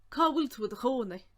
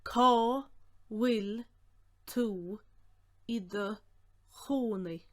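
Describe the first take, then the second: First: Said in the usual way. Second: One word at a time, strong first word; each word sounded out alone; slow breakdown. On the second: Shown as a demonstration. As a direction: dictate slowly with clear gaps.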